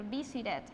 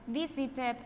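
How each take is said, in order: First: Visited with a tapped T, "visi-red"; softened ED variant. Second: Visited with a firm T, "visi-ted"; full ED syllable. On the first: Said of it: "or visited". (visited con T suave, casi "visi-red") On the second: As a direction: sound the final -ed of visited as a syllable. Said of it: "ese sonido se pronuncia como tal". (visited dicho "visi-ted", con T clara) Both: Shown as a demonstration.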